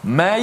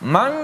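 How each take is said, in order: First: N merges into y with no nasal sound. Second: N stays separate and does not merge into y. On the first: "Ada orang dimasuk ya saja. tutup hidung tak rasa apa-apa" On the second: "dia masuk nun saja tapi ya tak masuk"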